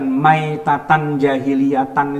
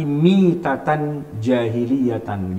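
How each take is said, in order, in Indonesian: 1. Kata pertama dimulai dengan bunyi 'mai'. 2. Kata pertama dimulai dengan bunyi 'mi'. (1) "bacanya itu bukan maitatan jahiliyatan itu bukan" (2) "tapi mitatan jahiliyatan gitu"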